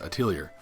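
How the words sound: It is said with an English pronunciation. "the marketing in English I keep hearing is Atelier"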